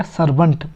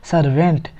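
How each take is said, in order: First: सर्वेंट as "SAR-bunt", short reduced second vowel; "sur-bunt" for सर्वेंट; correct pronunciation. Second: सर्वेंट as "sar-VENT", with a full "e"; wrong pronunciation. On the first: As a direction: say सर्वेंट with "bunt", not "vent". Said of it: "तो क्या हो जाएगा?". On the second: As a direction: show the mistaken "vent" in सर्वेंट. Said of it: "ना कि सर्वेंट।". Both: Shown as a demonstration.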